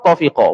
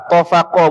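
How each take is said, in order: First: The vowel after the f is 'i'. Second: The vowel after the f is 'a'. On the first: "baca dengan kasrah fa pun boleh" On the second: "dibaca dengan baca dengan fathah fa"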